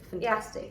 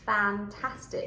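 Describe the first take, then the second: First: The first vowel is reduced to a weak sound. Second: The first vowel is a full 'a' sound. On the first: The speaker calls it wrong. "when the vowel is not stressed, it gets reduced, and we are very tempted to say" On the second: The speaker calls it right. "But it has to be"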